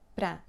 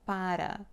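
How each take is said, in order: First: The word is squeezed into one syllable. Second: The word is said with two full syllables. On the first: The speaker calls it right. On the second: The speaker calls it wrong.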